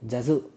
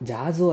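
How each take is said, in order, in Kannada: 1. ಮೊದಲ ಸ್ವರ ಹ್ರಸ್ವವಾಗಿದೆ. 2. ಮೊದಲ ಸ್ವರ ದೀರ್ಘವಾಗಿದೆ.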